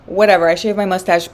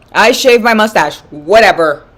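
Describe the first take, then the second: First: Said in the usual way. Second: Loud, drawn-out confession; loud admission. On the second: Real, not acted. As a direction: blurt it out slowly and loudly. Blurted admission, then casual repeat.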